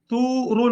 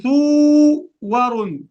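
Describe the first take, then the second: First: "ثور" read as one word with a long u; joined "ثور", waw only lengthening the u; correct joined reading. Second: "ثور" split, long u then a separate "wa"; imitating a learner's broken "ثور", loud and drawn out; mistaken re-reading. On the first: Shown as a demonstration. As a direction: glide through "ثور" without a break. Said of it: "يقول ثور". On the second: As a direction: overstretch the u in "ثور", then voice the waw again. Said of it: "فلا تعيد قراءة هذه".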